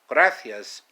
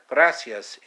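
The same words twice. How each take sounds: First: It is said with a Castilian Spanish accent. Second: It is said with a Latin American accent. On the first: "in Castellano"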